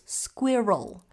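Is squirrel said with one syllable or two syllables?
two syllables. The word is said as two syllables. The speaker calls it right. "There there are two syllables"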